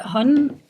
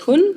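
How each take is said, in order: First: The word is pronounced the English way. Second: The word is pronounced the Danish way. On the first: It refers to a hunter. "is the English pronunciation" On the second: It means she. "the other pronunciation you did, which is Hun, uh, is actually um, the female pronoun in Danish"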